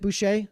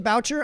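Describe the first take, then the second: First: The name is pronounced in a French way. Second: The name is pronounced in an English way. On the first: This is how the family says the name. "his family pronounces it Boucher" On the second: This is how the speaker says the name. "I'm going to say Boucher"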